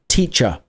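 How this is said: The final r sound is dropped. "in British English we say car and teacher"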